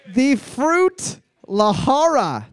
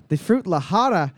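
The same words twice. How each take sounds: First: Slow careful reading. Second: Said in the usual way. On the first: Shown as a demonstration.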